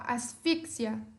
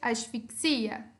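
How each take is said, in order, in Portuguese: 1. É dito com a acentuação de palavra espanhola. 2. É dito com a acentuação de palavra portuguesa. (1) "Em espanhol" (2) "Em português"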